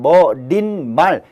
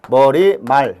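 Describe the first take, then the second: First: An extra n sound comes before 말. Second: No extra sound comes before 말. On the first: The speaker calls it wrong. "이렇게 발음이 될 텐데" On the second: The speaker calls it right. "발음 나는 그대로 머리말"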